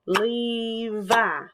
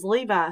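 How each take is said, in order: First: LE-VI in two drawn-out beats; syllable by syllable. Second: Said in the usual way. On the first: Shown as a demonstration. Teacher clapping her little boy's name, "Levi" in two beats. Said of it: "I would clap his name and say". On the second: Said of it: "I would clap his name".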